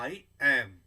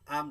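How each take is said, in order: First: It is said as two full words. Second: It is contracted into one short syllable. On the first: "पहले में मैंने क्या कहा" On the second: "I comma M"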